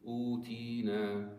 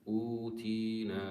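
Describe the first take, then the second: No difference in how they are said.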